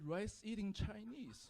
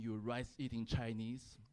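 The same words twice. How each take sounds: First: Slow, higher, softer echo; failing at anger. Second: Slow, lower retold jeer; retold insult. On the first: Acted. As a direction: repeat the insult, unable to get mad. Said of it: "So I tried to get mad. ... But I just couldn't". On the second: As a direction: imitate a stranger's drawn-out insult. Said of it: "but he went".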